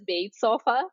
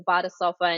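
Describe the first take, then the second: First: The name is read as English spelling suggests. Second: The name is read as a German word. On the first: The speaker calls it wrong. "a lot of people in the U S pronounce it as Bade Sofa. That's how it's spelled phonetically" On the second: The speaker calls it right. "it's really, it's a Badesofa"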